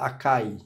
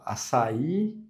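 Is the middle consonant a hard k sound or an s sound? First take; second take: k sound; s sound. First: The middle consonant is a hard k sound. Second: The middle consonant is a soft s sound. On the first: The speaker calls it wrong. "eu errei totalmente a pronúncia, açaí. Então, eu errei o cedilha aí" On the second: The speaker calls it right. "ao invés de eu falar a, açaí"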